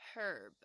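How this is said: It is said with a British pronunciation. "h 要好好的发音，herb 就要念成"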